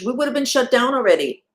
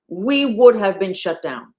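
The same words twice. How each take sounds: First: High, loud, running straight through; raised pitch and volume, at an ordinary pace; emphatic. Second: Loud, slowed-down insistence; raised voice, slow and deliberate; slow emphatic. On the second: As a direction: spell it out slowly and forcefully, word by word. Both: Real, not acted. Repeats the line for emphasis.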